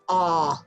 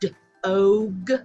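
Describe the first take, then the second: First: The vowel is said short. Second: The vowel is said long. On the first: The speaker calls it right. "they're going to say dog" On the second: The speaker calls it wrong. "instead of saying dog"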